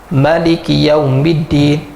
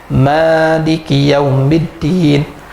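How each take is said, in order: First: The first vowel of maliki is short. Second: The first vowel of maliki is long. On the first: The one who rules over that day. "ma tu kita baca satu harakat saja" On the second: The one who owns that day. "dipanjangkan huruf ma"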